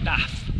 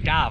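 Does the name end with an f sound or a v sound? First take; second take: f sound; v sound. First: The name ends with a voiceless f sound. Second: The name ends with a voiced v sound. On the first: "not Daff"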